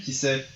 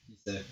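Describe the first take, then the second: First: Said in the usual way. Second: Soft musing echo. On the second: Shown as a demonstration. Alone at night, wondering about the concert, murmured. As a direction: drop to a near-murmur. Echoing her own words, musing.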